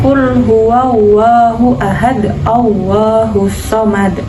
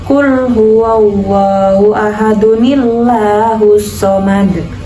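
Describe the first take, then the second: First: It stops after ahad with no added sound. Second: It runs straight on, linking with a nun sound. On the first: The reciter pauses at the end of the verse. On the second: The verses are joined without stopping.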